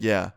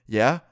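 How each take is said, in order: First: Said in the usual way. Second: "Yeah" louder, with a rising questioning tune; challenging question. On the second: Retold or imitated. Classmate questions the offer of help.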